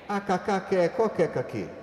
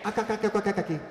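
First: The line is spoken at a slow pace. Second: The line is spoken at a very fast pace.

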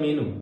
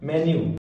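First: The first vowel is a long 'ee' sound. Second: The first vowel is a short 'eh' sound. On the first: The speaker calls it wrong. "इसको हम पढ़ जाते हैं मीनू" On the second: The speaker calls it right. "उस वाले को बोलते हैं मेन्यू"

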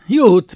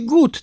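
First: The word starts with a y sound. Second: The word starts with a hard g sound. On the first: This is the Berlin dialect form. "tylko mówi jut" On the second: This is the standard form, not used in Berlin. "Berlińczyk nie powie gut"

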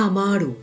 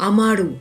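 The two takes are said the same way.

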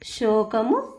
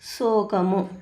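First: It begins with a 'sh' sound. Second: It begins with a plain 's' sound. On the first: "ఇక్కడ చూడండి షా వచ్చింది" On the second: "ఇక్కడ so సా మామూలు సా వచ్చింది"

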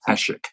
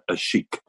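First: The name is said with a plain s sound. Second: The name is said like 'a sheik'. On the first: The speaker calls it right. "his last name is Asik" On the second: The speaker calls it wrong. "not a sheik"

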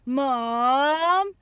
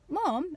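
First: It is said long and whining. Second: It is said brightly and cheerfully.

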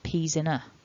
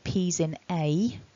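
First: The final 'a' has a weak schwa vowel. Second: The final 'a' has a full, strong vowel. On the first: The speaker calls it right. "I said peas in a. ... It's a weak vowel" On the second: The speaker calls it wrong. "I didn't say peas in a"

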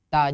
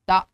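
First: A plain t followed directly by a. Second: A glottal catch is added to the syllable. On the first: The speaker calls it right. "Harusnya ta. Bunyikan t, a" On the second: The speaker calls it wrong. "ada huruf hamzah, salah"

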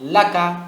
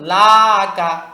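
First: The first vowel is kept short. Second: The first vowel is drawn out long. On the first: The speaker calls it right. "কি বলবেন?" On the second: The speaker calls it wrong. "আরেকটা হলো টান দিয়ে ফেলা"

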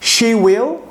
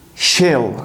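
First: Two full words are said separately. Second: The two words merge into one syllable.

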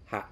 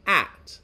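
First: The word begins with an H sound. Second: The word begins without an H sound.

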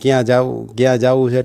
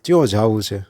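First: The first word starts with a k sound. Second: The first word starts with a ch sound. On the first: This is the standard form. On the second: This is the regional dialect form.

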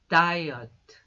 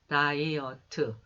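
First: The stress falls clearly on the first syllable. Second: The syllables are said evenly, without first-syllable stress. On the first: The speaker calls it right. "앞에 강세를 주고" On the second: The speaker calls it wrong. "이것을 이렇게 읽어주는 것이 아니라"

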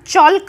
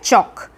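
First: An l sound is heard before the k. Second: No l sound is heard before the k. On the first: The speaker calls it wrong. "हम चॉल्क नहीं बोलते" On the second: The speaker calls it right. "तो यह है चॉक"

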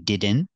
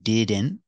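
Both takes have the same delivery.

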